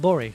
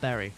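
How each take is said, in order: First: The word is said in the local way. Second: The word sounds like the word berry. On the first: The speaker calls it right. "see how I said Bury" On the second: The speaker calls it wrong. "not Berry"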